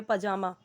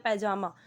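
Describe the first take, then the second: First: "पजामा" with a short first vowel, pa-jaa-maa; Hindi pronunciation. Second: "पैजामा" with an open "pai" first syllable; variant pronunciation. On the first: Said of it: "हम बोलते हैं ना हिंदी में". ("पजामा" का हिंदी उच्चारण, पहला अक्षर छोटा प) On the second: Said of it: "जैसे हम बोलते हैं". ("पैजामा" का उच्चारण, पहले अक्षर में पै) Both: Shown as a demonstration.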